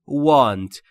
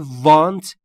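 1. صدای اول، W با گرد کردن لب است. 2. صدای اول، W با گرد کردن لب نیست. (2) "پس تلفظ want اشتباهه"

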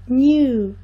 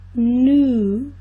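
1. Um y antes da vogal, como um deslize. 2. Uma vogal oo longa e simples, sem deslize. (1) "no inglês britânico se fala new, new, como se tivesse um i no meio" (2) "Nos Estados Unidos, não, é new. New, com som de U bem prolongado"

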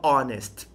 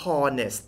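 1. คำว่า honest ขึ้นต้นด้วยสระ ไม่มีเสียง h ค่ะ 2. คำว่า honest ขึ้นต้นด้วยเสียง h ที่ออกเสียงชัดค่ะ (1) "ไม่ต้องออกเสียง h นะฮะให้ออกเสียงว่า" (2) "คำนี้ไม่ได้ออกเสียงว่า"

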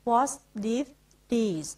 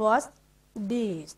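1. คำว่า 'is' ออกเสียงเต็มและชัดเจน 2. คำว่า 'is' ลดเหลือเสียง s เบาๆ (1) "ตัวแถวบนเราจะออกเสียง S ด้วยชัดเจน" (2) "ออกเสียง S นิดเดียว"

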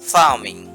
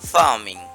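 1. কনসোনেন্টের আগে r টি নীরব। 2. কনসোনেন্টের আগে r টি নীরব।

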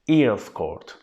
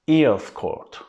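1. 'Earls' kelimesi, 'ear' kelimesinin ünlüsüyle başlar. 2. 'Earls' kelimesi, 'ear' kelimesinin ünlüsüyle başlar.

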